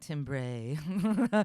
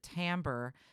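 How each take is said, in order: First: The first syllable sounds like 'tim'. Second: The first syllable sounds like 'tam'. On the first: The speaker calls it wrong. "It almost looks like timbre or something, timbre. But do not pronounce it like that" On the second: The speaker calls it right. "we specifically pronounce it timbre in American English"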